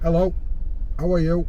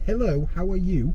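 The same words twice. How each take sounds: First: The H sounds are dropped entirely. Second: The H sounds are clearly pronounced. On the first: This is the local Yorkshire way. The speaker calls it right. "in Yorkshire we don't use H at all" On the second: This is the standard way, not the local one. The speaker calls it wrong. "So it's not"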